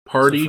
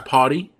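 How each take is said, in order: First: The r sound after the vowel is pronounced. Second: The r sound after the vowel is dropped.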